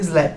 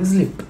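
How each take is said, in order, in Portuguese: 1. A vogal é um som aberto, parecido com 'ah'. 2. A vogal é um som longo de 'ee'. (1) "eu não falo slap" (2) "eu falo sleep"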